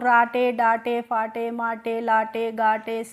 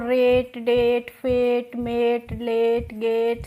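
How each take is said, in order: First: Each word ends in an extra vowel sound. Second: Each word ends in a consonant sound. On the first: The reader does not know the spelling rule. The speaker calls it wrong. "आपको rule नहीं पता होता तो" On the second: The reader knows the spelling rule. The speaker calls it right. "आपको rule पता था तभी तो आपने इनको रेट डेट फेट मेट लेट गेट"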